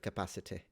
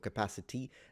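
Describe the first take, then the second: First: The final vowel is a half-pronounced 'y' sound. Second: The final vowel is a plain, simplified 'ee'. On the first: "maintaining the Y as a half-pronounced vowel" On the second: "in between it seems to be simplified into a E"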